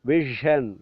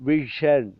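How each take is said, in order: Both takes have the same delivery.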